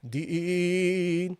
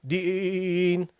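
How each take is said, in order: Both takes have the same delivery.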